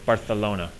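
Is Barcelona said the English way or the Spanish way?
Spanish. It is said with local Spanish pronunciation.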